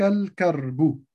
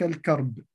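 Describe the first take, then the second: First: The word ends with a short vowel. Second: The word ends on a bare consonant. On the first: "أنا قلت الكرب حتى أبين الحركة" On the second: "حال الوقف نقف على بحرف ساكن"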